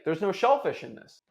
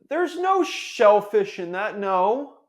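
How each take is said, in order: First: It sounds direct and confident. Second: It sounds hesitant and unsure.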